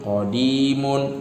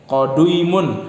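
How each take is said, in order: First: The middle vowel is a single long 'i'. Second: The middle vowel is a 'u' gliding into 'i'. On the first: The speaker calls it right. "dibaca panjang" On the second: The speaker calls it wrong.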